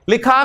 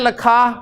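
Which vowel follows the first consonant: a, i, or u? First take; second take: i; a. First: The first vowel is a short 'i'. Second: The first vowel is a short 'a'. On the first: The speaker calls it right. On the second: The speaker calls it wrong.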